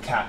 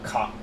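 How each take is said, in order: First: The vowel is a flat a, as in cat. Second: The vowel sounds closer to cot. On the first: "instead of cat" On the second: "it's more like cot"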